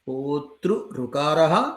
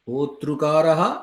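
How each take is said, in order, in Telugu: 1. రెండు ఋ-స్వరాలు కలవకుండా వేరుగా ఉంటాయి. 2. రెండు ఋ-స్వరాలు కలిసి ఒకే హ్రస్వ స్వరంగా మారతాయి. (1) "प्रकृतिभावपक्षे होतृऋकारः" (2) "ऋतिसवर्णे रुवा इति ऋकारादेशपक्षे होतृकारः"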